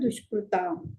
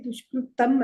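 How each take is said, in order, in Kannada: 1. ಕೊನೆಯ ಅಕ್ಷರದ ಸ್ವರ ದೀರ್ಘ ಇದೆ. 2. ಕೊನೆಯ ಅಕ್ಷರದ ಸ್ವರ ಹ್ರಸ್ವ ಇದೆ. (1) "ದುಷ್ಕೃತಾಂ ದೀರ್ಘ ಇದೆ" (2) "ದುಷ್ಕೃತಂ ಅಲ್ಲ"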